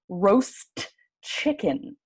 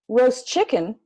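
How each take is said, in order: First: The T at the end of roast is pronounced. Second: The T at the end of roast is dropped. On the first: The speaker calls it wrong. "It's really hard to say a lot of consonant sounds all together" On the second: The speaker calls it right. "we'll take the T and throw it away"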